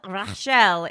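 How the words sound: It is said with a French accent.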